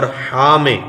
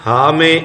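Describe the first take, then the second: First: ہا with a strong, throaty Arabic ح; ہا rasped from mid-throat like Arabic ḥa; pharyngeal h. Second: Ordinary h in ہا; light h. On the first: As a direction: squeeze the throat on ہا. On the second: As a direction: say ہا as a plain English-style h. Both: Shown as a demonstration. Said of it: "ہم نے فرق کرنا ہے".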